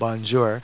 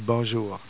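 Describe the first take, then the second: First: It is said with an English-style accent. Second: It is said with a native French accent. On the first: The speaker calls it wrong. "the kind of anglicized way to say it" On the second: The speaker calls it right. "the proper pronunciation would be bonjour"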